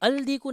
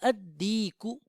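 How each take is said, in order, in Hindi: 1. L को D से पहले बोला जाता है। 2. L मौन रहता है, D दोहरा होता है।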